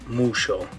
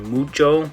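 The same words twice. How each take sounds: First: The middle consonant is a sh sound. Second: The middle consonant is a ch sound. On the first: "more of a sh sound" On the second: "instead of the ch sound"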